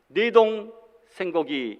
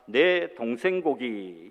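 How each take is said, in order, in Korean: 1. 띄어쓰기는 두 번째 음절 뒤에 있습니다. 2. 띄어쓰기는 첫 번째 음절 뒤에 있습니다. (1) "이렇게 띄어쓰기를 해야 되는데" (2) "내 동생고기 이렇게 이야기가 되더라고요"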